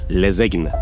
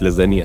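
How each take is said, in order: First: The word has a 'g' sound after the 'z'. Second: The word has an 'n' sound after the 'z'. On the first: "بينطقوها غلط" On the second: "مش لازانيا"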